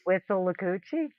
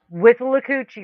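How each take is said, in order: First: The place name is said in its standard form. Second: The place name is said in an altered form. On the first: The speaker calls it right. "the actual pronunciation" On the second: The speaker calls it wrong. "Somebody mispronounced it"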